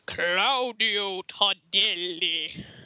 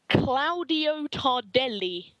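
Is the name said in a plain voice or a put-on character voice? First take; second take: put-on; plain. First: The name is said in a put-on voice. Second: The name is said in a plain voice.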